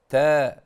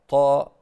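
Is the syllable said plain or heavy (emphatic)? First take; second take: plain; heavy. First: The syllable is plain, with no emphatic thickening. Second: The syllable is heavy, with emphatic thickening. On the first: This is how native Arabic speakers say it. "وإنما تقول آ، تا" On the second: This is how some non-native speakers say it. "يفخمون يريدون تفخيم التاء"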